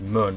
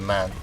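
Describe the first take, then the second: First: The vowel is a short 'uh' sound. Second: The vowel is a clear 'a' sound. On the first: This is how the grandfather says it. "He says mun" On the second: This is the usual way to say it. "as opposed to man"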